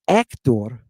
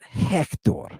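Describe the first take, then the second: First: The word starts without an H sound. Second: The word starts with an H sound. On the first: The speaker calls it wrong. "Not Hector" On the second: The speaker calls it right. "So we got to put an H sound on it"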